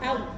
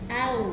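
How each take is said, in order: First: The first vowel is rushed straight into the glide. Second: The first vowel is held one beat before gliding. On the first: The speaker calls it wrong. "tidak boleh au. Au itu kan terlalu cepat" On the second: The speaker calls it right. "harokatnya hamzah ini dipenuhi satu harokat dulu baru ke wawu"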